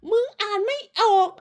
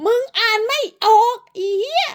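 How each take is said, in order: First: High sing-song taunt, pulled back in volume. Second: Shrill mocking taunt. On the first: Taunting again, softer. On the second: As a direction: jeer at her for not reading. Taunting rival. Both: Real, not acted.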